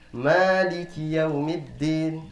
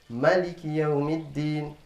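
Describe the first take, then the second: First: The first vowel of Maliki is held long. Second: The first vowel of Maliki is kept short. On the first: "Kita membaca panjang" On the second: "Imam yang lainnya membaca pendek"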